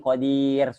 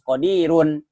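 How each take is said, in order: First: The word ends on a bare r sound. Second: The word ends with an added -un sound. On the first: The reader stops at this word. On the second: The reader carries on without stopping. "kalau tidak wakof ya harus qadirun"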